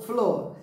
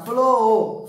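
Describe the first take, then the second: First: Said in the usual way. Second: FLOR with the vowel stretched long; long, sustained "o" in FLOR; imitating children's drawn-out word. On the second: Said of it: "Eles costumam falar".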